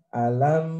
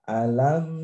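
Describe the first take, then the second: The two takes are said the same way.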